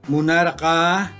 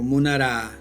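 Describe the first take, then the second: First: The ending keeps the back consonant before 'a'. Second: The ending drops the back consonant before 'a'. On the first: "El pretérito indefinido erqa" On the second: "lo pronuncian como munara"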